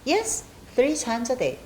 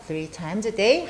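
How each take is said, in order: First: Slow, clear answer, pitch dropping to the end of "day"; "Yes" up high, then settle down through "three times a day"; falling statement tune. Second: Slow check-back question, pitch rising on "day"; rising question tune. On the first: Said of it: "내려오면 긍정문이 됐죠". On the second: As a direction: ask "Three times a day" with "day" lifting at the end. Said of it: "뒤에가 좀 올라가면 의문문이 되고". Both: Shown as a demonstration.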